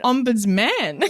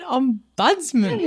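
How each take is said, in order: First: Front-stressed ombudsman with a clear final man; proposed emphasis. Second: Ombudsman stressed on BUDS, drawn out; questioned emphasis. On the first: Shown as a demonstration. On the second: Retold or imitated. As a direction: query it as om-BUDS-man, higher and slow. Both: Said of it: "but the emphasis".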